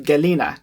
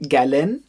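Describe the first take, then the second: First: "galena" with a short final "a"; "galena" in three syllables, voice dropping at the end; intended pronunciation. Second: "galen" with a rising pitch on the last syllable; "galen" cut to two syllables, pitch going up; mistaken pronunciation. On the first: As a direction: say "galena" as the word meaning calm, ending on a light extra syllable. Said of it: "instead of galena, calm". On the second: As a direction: say "galen" as the slipped word meaning weasel, voice lifting at the end. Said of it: "differentiated by pronunciation". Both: Shown as a demonstration.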